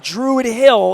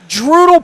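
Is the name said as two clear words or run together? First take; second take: two words; run together. First: The name is said as two separate words. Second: The name is squeezed into one short word. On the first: The speaker calls it wrong. "if you say it wrong" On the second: The speaker calls it right. "if you say it right"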